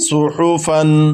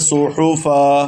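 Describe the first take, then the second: First: The word ends with an -an sound. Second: The word ends with a long -a sound. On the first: The reader carries on without stopping. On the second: The reader stops on this word.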